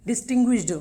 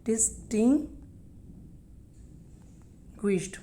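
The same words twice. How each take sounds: First: Said in the usual way. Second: Very slow distinguished with a long pause before GUISHED; syllable-by-syllable pronunciation. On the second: Shown as a demonstration. Teacher sounding out a word for learners, broken in parts. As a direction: say DIS-TING, wait, then a soft GUISHED in distinguished.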